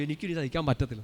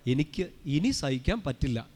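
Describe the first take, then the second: First: Said in the usual way. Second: Slow, spaced words, each given room; saint's measured tone. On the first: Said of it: "നമ്മൾ പറയും". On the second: Shown as a demonstration. Preacher showing how the saint said it, slow and deliberate. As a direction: take it slowly, pausing after the first word. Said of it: "വായിച്ചത് ഇങ്ങനെയാണ്".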